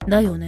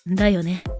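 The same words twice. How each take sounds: First: It sounds like an insistent, pushy assertion. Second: It sounds like a genuine, open question. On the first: The speaker only pretends to ask and insists it is so. "聞いてるように見せかけて、ね、そうでしょって言ってる" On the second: The speaker is truly asking for agreement. "じゃなくて"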